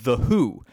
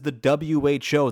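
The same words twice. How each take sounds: First: WHO is said as the single word who. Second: WHO is spelled out as three separate letters. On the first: It sounds like the name of a band. The speaker calls it wrong. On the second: It names the World Health Organization. The speaker calls it right.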